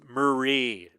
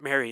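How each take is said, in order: First: The name sounds like Marie. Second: The name sounds like Mary. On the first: The speaker calls it right. "and it's Marie" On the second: The speaker calls it wrong. "I hear lots of people pronounce it Mary"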